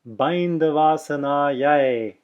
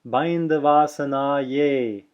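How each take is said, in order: First: The word ends with an 'eye' diphthong. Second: The word ends with an 'ay' sound. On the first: The speaker calls it right. "is the way it should be pronounced" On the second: The speaker calls it wrong. "in South India, you will hear Bindavasanaye"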